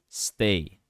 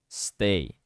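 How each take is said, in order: No difference in how they are said.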